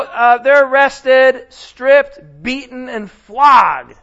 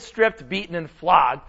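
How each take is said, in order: First: Each word hit loud and slow; slow, heavy, louder stresses; emphatic list. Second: Said in the usual way. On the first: Acted. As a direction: pound out every punishment. Dramatic list of Paul's suffering.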